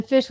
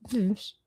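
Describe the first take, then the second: First: "fish" said as "fysh", rhyming with ice; two-eye pronunciation. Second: "fish" said as "fsh", no vowel; vowelless pronunciation. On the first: Host explains two-eyes joke, "fish" said as "fysh". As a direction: stretch "fish" to a long eye vowel, "fysh". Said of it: "fish with two eyes would be". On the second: Host explains no-eyes joke, "fish" said as "fsh". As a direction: drop the i from "fish", just a soft "fsh". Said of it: "fish with no eyes is". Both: Shown as a demonstration.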